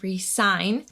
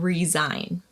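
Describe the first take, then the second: First: The middle consonant is a hissing S sound. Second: The middle consonant is a buzzing Z sound. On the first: To sign a contract again. "the S has an S sound" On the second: To quit your job. "the S is pronounced as a Z sound"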